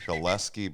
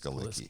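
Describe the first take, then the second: First: The name ends with a 'leski' sound. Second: The name ends with a 'licki' sound. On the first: This is how the person himself says his name. "Jesse says it's Skaleski" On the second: This is how everyone else says the name. "but the accepted pronunciation is Skalicki"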